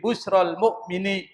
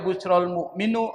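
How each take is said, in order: First: The last word ends in an i vowel. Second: The last word ends in a u vowel. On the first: The speaker calls it right. "Al-mu'min dibaca al-mu'mini" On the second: The speaker calls it wrong. "Enggak boleh dibaca"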